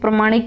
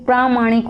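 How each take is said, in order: First: The first vowel is said short. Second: The first vowel is said long. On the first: The speaker calls it wrong. "जैसे प्रमाणिक बोल दी" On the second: The speaker calls it right. "लेकिन बच्चों ये प्रामाणिक होता है"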